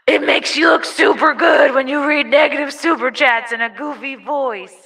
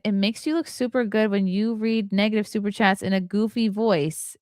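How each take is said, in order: First: It is read in a put-on silly voice. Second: It is read in a normal speaking voice.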